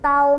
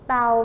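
First: The syllable is said with a high tone. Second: The syllable is said with a falling tone. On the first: "เต่าไม้ตรี" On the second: "เต่าไม้โท"

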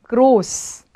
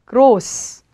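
Both takes have the same delivery.

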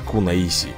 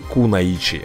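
First: The consonant before the final vowel is 's'. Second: The consonant before the final vowel is 'ch'. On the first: The speaker calls it wrong. "а не кунаиси" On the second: The speaker calls it right. "лучше звучит"

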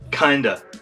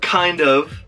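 First: The words blend into one reduced word. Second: Both words are said fully and separately.

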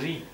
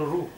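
First: It is an r followed by an i vowel. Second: It is an r followed by a u vowel. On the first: This is how Hindi speakers say it. "Hindi people pronounce ri. They can't pronounce r" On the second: This is how South Indian speakers say it. "South Indian people pronounce ru"

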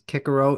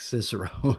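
First: The name is said the classical Latin way. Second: The name is said the familiar English way. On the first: "the correct pronunciation is Cicero" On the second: "It just looks like Cicero"

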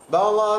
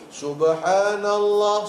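First: It is said very fast and slurred. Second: It is said a little faster.

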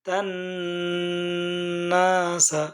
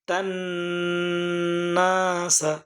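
No difference in how they are said.

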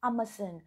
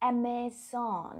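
First: It is said with a British accent. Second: It is said with an American accent. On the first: "เป็น, British, English, นะคะไม่ใช่อเมริกันนะคะ" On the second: "ถ้าอเมริกันจะประมาณว่า"

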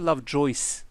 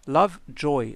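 First: The name ends with an s sound. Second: The name ends without an s sound. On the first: The speaker calls it wrong. "ليس لاف جويس" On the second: The speaker calls it right. "لاف جوي ليس لاف جويس"

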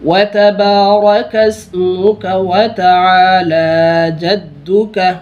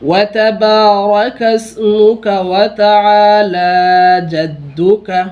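Both takes have the same delivery.

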